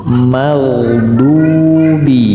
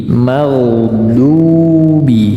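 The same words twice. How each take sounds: No difference in how they are said.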